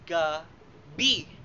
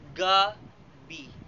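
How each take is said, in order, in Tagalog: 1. Nasa ikalawang pantig ang diin. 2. Nasa unang pantig ang diin. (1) "nilalapatan ng diin sa ikalawang pantig" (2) "nilalapatan ng diin sa unang pantig"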